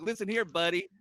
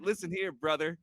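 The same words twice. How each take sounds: First: Changed promo voice. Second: Hulk Hogan style promo. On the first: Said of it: "I don't want him to be Hulk". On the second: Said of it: "Everybody has Hulk Hogan's voice". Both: Retold or imitated.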